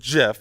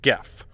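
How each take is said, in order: First: It starts with a soft G sound. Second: It starts with a hard G sound. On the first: This is the inventor's preferred pronunciation. "the inventor has said that it should be pronounced GIF" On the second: This follows the hard G of graphics. "regardless of what the inventor thinks, it's GIF"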